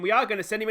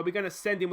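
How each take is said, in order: First: "are" punched higher and louder; stress on ARE. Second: Said in the usual way. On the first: Real, not acted. Commentator commits to sending the runner, stress on "are". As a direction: hit the word "are" as a firm, excited correction. Same decision repeated with emphasis.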